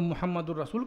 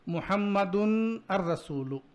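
First: The n sound is dropped, joining into rasul. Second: The n sound is heard before rasul. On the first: "मिला के पढ़ेंगे ... दाल पर नून की आवाज़ नहीं आ रही है" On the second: "ऐसा ना पढ़ करके"

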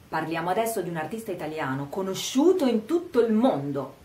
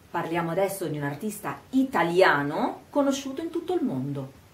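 First: Emphasis falls on 'conosciuto in tutto il mondo'. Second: 'Italiano' alone is slowed and emphasized; the rest is fast. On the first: The artist is famous worldwide. "enfatizziamo il fatto che sia conosciuto in tutto il mondo" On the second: The artist's nationality matters. "rallento quando dico italiano? Enfatizzo e rallento, ma il resto è veloce"

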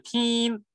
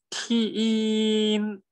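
First: The word is said as one syllable. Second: The word is split into two sounds. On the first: The speaker calls it wrong. "就不是听" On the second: The speaker calls it right. "踢音，哎，就不是听"

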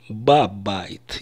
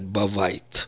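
First: The middle consonant is a B sound. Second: The middle consonant is a V sound. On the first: The speaker calls it right. "я должен буду сказать «бабайт»" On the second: The speaker calls it wrong. "Я не могу сказать «бавайт»"

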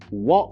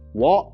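First: The T is swallowed as a throat catch. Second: The T is clearly pronounced.

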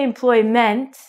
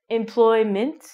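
First: The ending is said with a full 'meant' vowel. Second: The ending is said with a short 'mint' vowel. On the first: The speaker calls it wrong. "we don't say employment" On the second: The speaker calls it right. "your pronunciation is going to be M-I-N-T, like mint"

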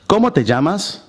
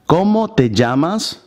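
First: It is said at normal speed. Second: It is said very slowly.

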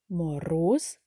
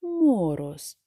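First: The stress is on the second syllable. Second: The stress is on the first syllable. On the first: The speaker calls it right. "Чи другий?" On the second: The speaker calls it wrong. "Перший склад"

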